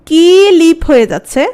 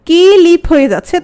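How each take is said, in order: Both takes have the same delivery.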